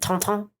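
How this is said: The name has a French pronunciation.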